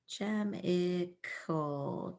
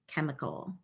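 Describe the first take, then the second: First: It begins with a 'ch' sound. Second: It begins with a 'k' sound. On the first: The speaker calls it wrong. "Not a word" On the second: The speaker calls it right. "the C H made a K sound"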